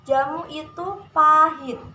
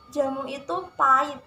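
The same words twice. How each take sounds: First: The word pahit is said in standard form. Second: The word pahit is said in a casual form. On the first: The speaker calls it right. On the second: The speaker calls it wrong.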